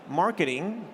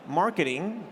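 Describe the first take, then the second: First: It is said in an American accent. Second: It is said in an American accent.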